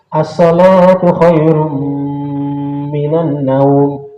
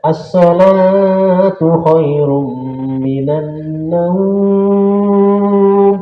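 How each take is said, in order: First: The last word naum is kept short. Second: The last word naum is drawn out long. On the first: This is how it is called in the holy mosques. "Salatnya yang panjang, naumnya yang pendek" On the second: This is how it is called in Indonesia. "Kalau di kita di Indonesia, ... panjang ya"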